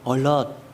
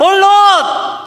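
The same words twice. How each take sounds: First: The word is said softly, without force. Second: The word is shouted loudly and urgently. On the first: The soldiers did not grasp that it was an emergency. The speaker calls it wrong. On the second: The soldiers understand clearly that it is an emergency. The speaker calls it right.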